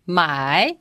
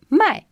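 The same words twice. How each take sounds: First: Dipping Mandarin "mai"; third tone. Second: "mai" high and falling sharply; short falling "mai"; fourth tone. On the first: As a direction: let "mai" sink, then lift it. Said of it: "the third tone". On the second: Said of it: "has got the fourth tone". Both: Shown as a demonstration.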